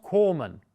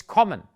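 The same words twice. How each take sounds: First: "kommen" with a long closed O, like koh-men; long vowel, wrong. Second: "kommen" with a short open O; short vowel. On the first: Teacher showing learners what not to say, long-vowel mispronunciation. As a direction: stretch the O in "kommen". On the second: Teacher correcting the example for learners, short-vowel pronunciation. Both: Shown as a demonstration. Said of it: "the vowel before that is short".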